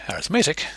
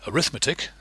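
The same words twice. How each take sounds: First: The stress is on the third syllable. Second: The stress is on the second syllable. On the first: It is an adjective describing something. "with the emphasis on the third syllable" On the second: It is a noun naming a branch of mathematics. "with the emphasis on the second syllable"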